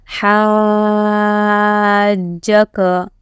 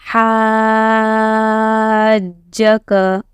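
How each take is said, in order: No difference in how they are said.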